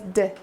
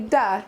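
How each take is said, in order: First: The d sound is clipped with no vowel. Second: The d sound has an added uh vowel. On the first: The speaker calls it right. "it says d" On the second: The speaker calls it wrong. "does not say duh"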